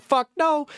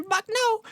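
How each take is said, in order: First: High-pitched, dismissive no; hammed-up refusal in a raised voice; mock blunt refusal. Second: Squeaky falsetto refusal; mocking echoed refusal. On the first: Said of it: "You said". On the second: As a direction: throw it back in a tiny, very high voice. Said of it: "They're gonna say".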